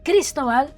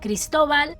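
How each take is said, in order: First: The name is said with an English pronunciation. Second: The name is said with a Spanish pronunciation. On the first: The speaker calls it wrong. "not Cristobal" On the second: The speaker calls it right. "In Spanish, it's it's said Cristobal"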